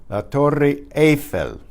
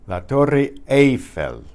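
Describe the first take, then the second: No difference in how they are said.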